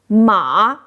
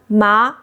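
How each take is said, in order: First: The pitch dips low then rises. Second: The pitch rises from mid to high. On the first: It means horse. "Third tone ma means horse" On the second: It means hemp. "Second tone ma means hemp"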